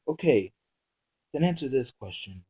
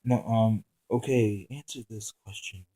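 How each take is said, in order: First: Calm. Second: Blank tone. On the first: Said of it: "And asked calmly". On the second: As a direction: say it with no feeling. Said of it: "asked in a blank tone". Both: Acted.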